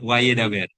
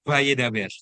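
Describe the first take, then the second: First: The first sound is a W. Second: The first sound is a V. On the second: "bacanya Vav itu sebagai V"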